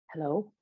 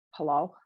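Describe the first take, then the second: First: Smooth, detached hello; cool, distant and unbothered; silky and aloof. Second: Bored, dismissive hello; flat and disdainful. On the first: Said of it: "Emmett's voice is deep and silky, detached, aloof". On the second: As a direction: answer like they can't be bothered. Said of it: "The voice is flat and disdainful". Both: A narrator's reading.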